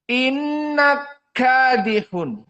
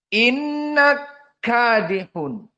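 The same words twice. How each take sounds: The two takes are said the same way.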